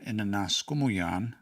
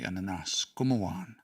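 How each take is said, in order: First: The word ends with a 'yan' sound. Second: The word ends with a 'wan' sound. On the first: This is the usual form. "Instead of" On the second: This is how people in one community say it. "they say"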